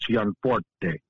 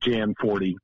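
First: The name is given its original Italian pronunciation. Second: The name is given an Americanized pronunciation. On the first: This is the original form of the name. "The original Italian is Gianforte, which is too hard for anybody" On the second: This is the easier, adapted form of the name. "the Americanization of it is Gianforte, which is what the easiest thing"

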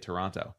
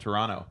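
First: The second T is clearly pronounced. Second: The second T is dropped. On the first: The speaker is American. "but Americans say Toronto" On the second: The speaker is Canadian. "They say it without the hard T at the end"

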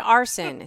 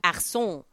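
First: The name is said with plain English sounds. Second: The name is said with French-style sounds. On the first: The speaker calls it wrong. "don't say Arson" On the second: The speaker calls it right. "Say it sort of like in the French way"

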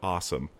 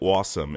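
First: It is said with a plain, non-Jersey accent. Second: It is said with a New Jersey accent. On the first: This is how people elsewhere say it. "instead of awesome" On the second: This is how locals in New Jersey say it. "everyone said awesome"

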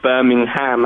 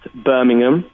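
First: It is given the American pronunciation. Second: It is given the English pronunciation. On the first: It names the city in the United States. "over here, obviously, you've got Birmingham, Alabama" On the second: It names the city in England. "In England, that's actually pronounced Birmingham"

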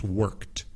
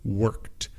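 First: The word is said with one syllable. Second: The same.

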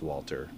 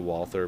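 First: The middle consonant is a plain 't' sound. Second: The middle consonant is a 'th' sound. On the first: The speaker calls it right. "but it's Walter, right?" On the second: The speaker calls it wrong. "I want to say Walther, but it's Walter"

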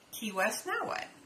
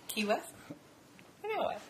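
First: It runs straight on without a pause. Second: There is a clear pause after Key West.

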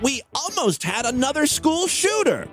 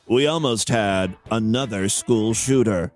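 First: The tone sounds upbeat and cheerful. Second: The tone sounds grave and somber. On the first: The speaker calls it wrong. "I don't know why I sound so happy about that" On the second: The speaker calls it right. "Let me adjust my tone here"

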